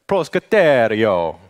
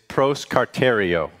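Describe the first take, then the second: First: It is said in an exaggerated Italian-style accent. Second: It is said plainly, in the speaker's normal accent.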